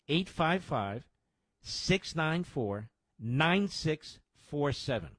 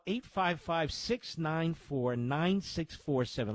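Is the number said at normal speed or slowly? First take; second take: slowly; normal speed. First: The number is said slowly. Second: The number is said at normal speed.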